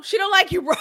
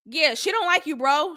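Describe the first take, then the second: First: Mock shout. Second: Said in the usual way. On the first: Cinco pressing Irvin harder, mock shout. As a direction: hammer it home this time. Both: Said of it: "he's telling, uh, Irvin".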